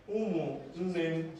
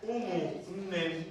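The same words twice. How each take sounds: First: Umunnem again, drawn out slowly with the final M kept clear; repeated slowly. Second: Umunnem said slowly, each syllable drawn out, ending on a clear M; slow Igbo model. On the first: Teacher repeating the word for students, slow and clear. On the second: Teacher drilling the class on a new word, slowly. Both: Shown as a demonstration. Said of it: "There's a difference between umunne and umunnem".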